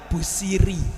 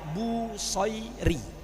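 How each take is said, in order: First: The middle vowel is reduced to a plain 'i'. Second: The middle vowel is a full 'ai' diphthong. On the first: "Orang Jawa bilang" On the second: "Bu soy ba wau sod ya soy ro ya"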